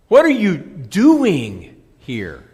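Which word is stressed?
doing. The word 'doing' carries the main stress. Asks what the person is doing there. "A question of activity"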